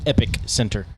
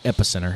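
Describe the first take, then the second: First: Epic Center with a clear break between Epic and Center; Epic Center as two words. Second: Epicenter said as one word, stress on the first syllable; Charlotte's Epicenter. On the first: Naming the festival home base, Epic Center as two words. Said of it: "what they call the Epic Center". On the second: Correcting the name, Epicenter as one run-together word. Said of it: "what they call the Epic Center, not Epicenter". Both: Shown as a demonstration.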